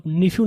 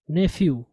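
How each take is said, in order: First: "nephew" with a short i, "ni-fyu"; mispronounced nephew. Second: "nephew" with an e, "NEF-yu"; correct nephew. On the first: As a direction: say "nephew" wrongly as NIF-yu. ("nephew" کا غلط تلفظ، "نِفیو") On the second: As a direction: model "nephew" clearly as NEF-yu. ("nephew" کا درست تلفظ، "نیفیو") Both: Shown as a demonstration. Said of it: "इसको आप nephew नहीं पढ़ेंगे".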